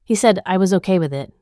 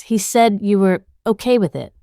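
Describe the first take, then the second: First: Fast, bitter echo of his words; bitter disbelief. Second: Cracking voice, strained and guilty. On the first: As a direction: repeat it, tasting the absurdity. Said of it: "I repeat, tasting the absurdity". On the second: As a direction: let the voice crack on it. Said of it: "his voice cracks". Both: A narrator's reading.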